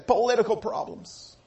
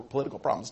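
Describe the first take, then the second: First: "political problems" higher and set apart; pointed emphasis. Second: Said in the usual way. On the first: Shown as a demonstration. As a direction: lean knowingly on "political problems". Contrasts back then with today.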